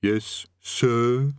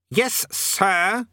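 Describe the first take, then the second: First: Drawn-out, reluctant "yes, sir"; comply grudgingly with the correction; underling's voice, held on "sir"; distant underling. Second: Higher, sharp "Yes, SIR"; imperious snap, rising at the end; snapped correction. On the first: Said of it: "The distant voice muttered something". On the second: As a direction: correct an underling's form of address. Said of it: "snapped the king". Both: A narrator's reading.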